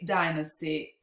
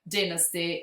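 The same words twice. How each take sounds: First: It is said in an American accent. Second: It is said in a British accent. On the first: "with American English" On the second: "in British English"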